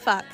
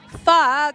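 First: It is said at a normal, quieter volume. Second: It is said louder.

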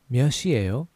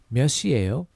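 No difference in how they are said.

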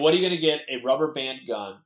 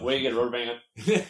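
First: The words are said clearly and separately. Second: The words are said fast and slurred together.

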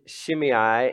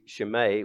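First: The name is pronounced in an English way. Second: The name is pronounced in a Greek way. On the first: "that's the English pronunciation of that" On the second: "If you were going to do it in Greek, it would be Shimei"

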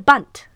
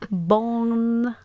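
First: The word is said in full, ending in t. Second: The word is mangled, with no final t. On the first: The speaker calls it right. "It's a bundt" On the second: The speaker calls it wrong. "she like can't pronounce it"

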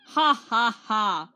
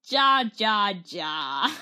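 First: Each syllable begins with a breathy H sound. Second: Each syllable begins with an English J sound. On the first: The speaker calls it right. "you pronounce the J like an H" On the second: The speaker calls it wrong. "But instead, I said ja ja ja"

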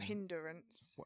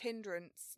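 First: Said with three syllables, extra vowel before r. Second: Said with two syllables, no vowel before r. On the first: The speaker calls it wrong. "not hindrance" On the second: The speaker calls it right. "It's hindrance, It's no E in between"

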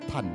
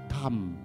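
First: The word ends with an n sound. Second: The word ends with an m sound. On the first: This is the Mandarin form. "Bahasa Mandarin" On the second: This is the regional dialect form. "dalam bahasa dialek daerahnya"

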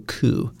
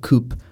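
First: It is pronounced the French way. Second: It is pronounced the way English spelling suggests. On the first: The speaker calls it right. "it is a word that's from France, so we say coup" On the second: The speaker calls it wrong. "it doesn't follow English pronunciation, because normally we would probably say coup"

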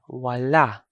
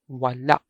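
First: The first vowel is long; the ending is open. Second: The first vowel is short; it ends in a glottal stop. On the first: It means the left side. "the first A sound is a long vowel, while the second vowel is a normal pronunciation" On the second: It means nothing or not. "the second vowel, A, is a short vowel with a stop"

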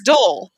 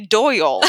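First: The name is said with one syllable. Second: The name is said with two syllables. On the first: "It's just one syllable" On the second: "you don't say Doyle"

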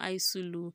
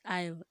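First: The s is sounded, with extra vowels added. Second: The s is silent, said like 'aisle'. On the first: The speaker calls it wrong. "It's not Isulu" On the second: The speaker calls it right. "It is Isle"

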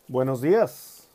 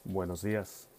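First: It is said in an ordinary pitch. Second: It is said in a very deep voice.

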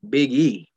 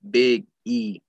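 First: It is said fast with no pause. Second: There is a pause between Big and E.

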